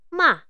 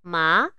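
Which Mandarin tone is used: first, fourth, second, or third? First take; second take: fourth; second. First: It is said with the fourth tone. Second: It is said with the second tone. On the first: "Dan bunyi keempat" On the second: "Bunyi yang kedua"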